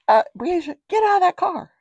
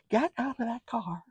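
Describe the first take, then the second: First: High, loud acted command; calling out sharply. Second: High but hushed acted command; softer mock order. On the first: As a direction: order a child out, raised voice. Acts what grandma should have called. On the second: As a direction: repeat the order with the volume dropped. Repeats the order softer, after laugh.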